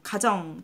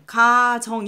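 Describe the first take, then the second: First: The first vowel is kept short. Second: The first vowel is drawn out long. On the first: The speaker calls it right. "짧게 발음이 돼요" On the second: The speaker calls it wrong. "이렇게 발음이 안 돼요"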